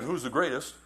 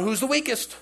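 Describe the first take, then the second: First: Said in the usual way. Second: Worried question. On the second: Retold or imitated. Disciples asking who betrays.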